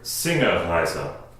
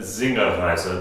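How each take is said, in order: First: The word begins with an S sound. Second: The word begins with a Z sound. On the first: "starting with an S sound" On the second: "with a Z sound on it"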